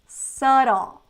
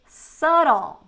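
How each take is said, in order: No difference in how they are said.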